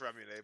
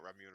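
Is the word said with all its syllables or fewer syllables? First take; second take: all syllables; fewer syllables. First: Every syllable of the word is pronounced. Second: The word is said with fewer syllables. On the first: The speaker calls it right. "I know it's ramune" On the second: The speaker calls it wrong. "we just call it ramune around here because people are fucking uncultured"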